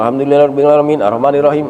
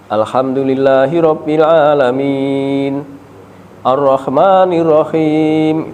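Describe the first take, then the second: First: The verses run together quickly without pause. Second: There is a short pause between the verses. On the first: The long and short sounds of recitation get lost. The speaker calls it wrong. "kalau terburu-buru" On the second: The recitation keeps its proper long and short sounds. The speaker calls it right. "agar memakai jeda sedikit"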